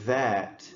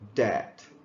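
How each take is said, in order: First: The word begins with a voiced th sound. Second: The word begins with a d sound. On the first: The speaker calls it right. "instead of saying that" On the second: The speaker calls it wrong. "you might say dat"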